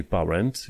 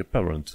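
First: "parent" with an open "a", "pa-rent"; wrong pronunciation. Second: "parent" said like "peh-runt"; correct pronunciation. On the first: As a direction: read "parent" as spelled, with full "a". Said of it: "Nu e parent". ("parent" citit cu a, greșit) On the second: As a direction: make the "a" of "parent" an "eh". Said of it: "e parent". ("parent" rostit cu e, "peărănt") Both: Shown as a demonstration.

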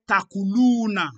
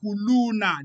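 First: Takuluna said slowly with a clear t at the start. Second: Yakuluna with a clear y at the start. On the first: To the other debater, showing the reading, slow Takuluna. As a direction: stress the opening t of Takuluna. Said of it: "you say". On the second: To the other debater, contrasting the reading, clear Yakuluna. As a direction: begin Yakuluna on a y sound. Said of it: "they say". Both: Shown as a demonstration.

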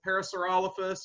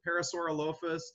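First: Parasaurolophus said pa-ra-saur-OL-o-phus; stress on the -rol- syllable. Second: Parasaurolophus said pa-ra-saur-o-LOH-phus; stress on the -loph- syllable. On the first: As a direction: stress OL in Parasaurolophus, weak short ending. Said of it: "So you could pronounce it". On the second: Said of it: "you could pronounce it". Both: Shown as a demonstration.

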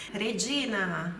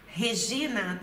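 First: "Regina" with Italian R and "dj": reh-DJEE-na; Italian pronunciation. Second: "Regina" with breathed R and "zh": heh-ZHEE-na; Brazilian pronunciation. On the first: Teacher models Italian word before the familiar name, Italian pronunciation. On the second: Teacher asks who knows someone so named, Brazilian pronunciation. Portuguese name after the Italian word. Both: Shown as a demonstration.

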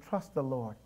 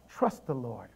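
No difference in how they are said.

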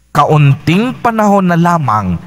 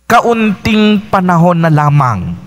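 The two takes are said the same way.

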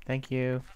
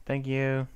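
Both takes have the same delivery.

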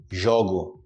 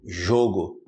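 First: Low "jogo" with open first o. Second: Low "jogo" with closed first o. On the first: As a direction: say jogo with an 'aw' vowel. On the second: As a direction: say jogo with an 'oh' vowel. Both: Shown as a demonstration. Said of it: "Percebe a diferença?".

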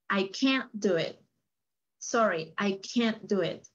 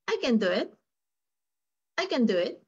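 First: Slow, CAN'T held with effort before "do it"; stressed CAN'T. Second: "can" short and effortless, running into "do it"; unstressed CAN. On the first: Teacher demonstrating the negative for Luis, CAN'T emphasized. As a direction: put extra effort into "can't". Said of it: "en el negativo hay un énfasis". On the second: Teacher demonstrating the affirmative for Luis, CAN left unstressed. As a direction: glide lightly over "can" without effort. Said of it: "En el afirmativo no hay esfuerzo". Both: Shown as a demonstration.

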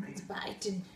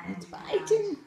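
First: Low, hushed creature voice on It's biting; deep put-on voice. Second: Said in the usual way. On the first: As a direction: drop into a deep monster voice. Deep voice then plain retake.

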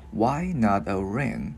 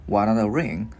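First: "Why not a ring" drawn out slowly, word by word; slow, careful model of the question; slowed-down demonstration. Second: Said in the usual way. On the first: Shown as a demonstration. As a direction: stretch each word for learners. Teacher slows the line for learners.

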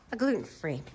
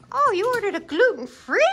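First: Low, soft repeat of the order; note it quietly to yourself; subdued confirmation. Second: High, incredulous rising question; play-acted surprise, pitch way up; surprised. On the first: Pretend. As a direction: pitch and volume dropped, settling the matter. Confirming the order after the surprise. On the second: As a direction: query the order in exaggerated surprise. Reacting to a pretend passenger's order.

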